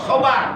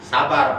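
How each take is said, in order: First: The first syllable has a darker 'o'-like vowel. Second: The first syllable has a plain open 'a' vowel. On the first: This matches the original Arabic letter. The speaker calls it right. "Sobar, jangan sabar" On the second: This is the common everyday way of saying it. The speaker calls it wrong. "Kita kan biasa nyebutnya sabar pakai sa, pakai sin ya"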